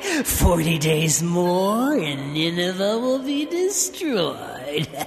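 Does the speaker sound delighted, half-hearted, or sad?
delighted. It is said in a delighted, gleeful tone. The messenger is glad about the coming destruction. "Did he say it delighted about the future destruction of his archenemy?"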